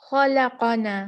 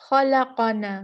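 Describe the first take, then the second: The two takes are said the same way.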